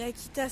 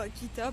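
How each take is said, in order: First: The final S is pronounced at the end. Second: The word ends without any S sound. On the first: "je prononce le S" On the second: "alors que j'ai pas besoin"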